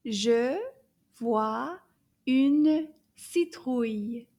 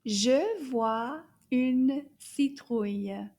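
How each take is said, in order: First: Je vois une citrouille spoken slowly, louder; slow model sentence. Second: Je vois une citrouille said slowly and firmly; slow repeat. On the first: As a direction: lay out the sentence slowly word by word. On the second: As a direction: repeat the sentence slowly for learners. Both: Shown as a demonstration. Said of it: "Can you repeat that?".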